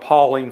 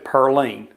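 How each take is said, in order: First: The name is said as Pauline, with no r. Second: The name is said as Pearline, with an r.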